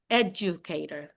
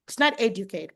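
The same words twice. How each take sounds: First: Educator with a soft j sound, ed-ju-kay-ter, said lower and softer; corrected educator; correct pronunciation. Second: Educator said the Filipino way, stress on the third syllable; mispronounced educator; wrong stress. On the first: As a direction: give educator the standard American ed-ju-kay-ter. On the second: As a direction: say educator with the local Philippine stress. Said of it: "Like one of them is an". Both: Shown as a demonstration.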